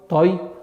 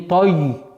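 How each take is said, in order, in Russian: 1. Конечный звук y мягкий и лёгкий. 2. Конечный звук y твёрдый и напряжённый.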